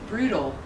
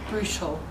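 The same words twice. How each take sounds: First: The middle consonant sounds like a D. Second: The middle consonant sounds like a T. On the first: This is a typical South African way of saying it. "T's, especially in the middle of the word, change to D's" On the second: This is the standard form for the lesson. "But but for the sake of today, it was brutal"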